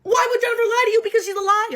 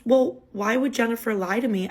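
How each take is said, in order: First: Much higher, laughing in disbelief; incredulous laughing. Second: Said in the usual way. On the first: Retold or imitated. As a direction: laugh the words out at how absurd it is. Echoing his question, incredulous.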